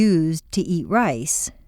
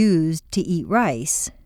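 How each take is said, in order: First: The consonant in 'used' is a voiced z. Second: The consonant in 'used' is a voiced z.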